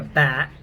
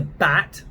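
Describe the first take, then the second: First: "bat" with the American A. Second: "bat" with the English A. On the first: Accent coach showing the "bat" to avoid, American vowel. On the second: Accent coach contrasting the right "bat" with the wrong one, English vowel. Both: Shown as a demonstration. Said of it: "not a bat".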